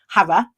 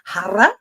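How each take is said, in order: First: The r is said without any rolling. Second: The r is rolled with the tongue tip. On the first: The mantra has no effect. The speaker calls it wrong. "with a London accent, it's an empty mantra" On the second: The mantra has a real effect. The speaker calls it right. "with the tip of the tongue rolling"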